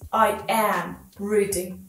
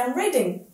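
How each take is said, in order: First: The words are said slowly and separately. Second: The words run together in natural speech. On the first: The speaker calls it wrong. "like in the intonation of this" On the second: The speaker calls it right. "it needs to be as natural as possible"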